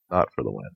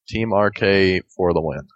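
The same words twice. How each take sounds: First: Quiet correction. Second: Said in the usual way. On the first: Shown as a demonstration.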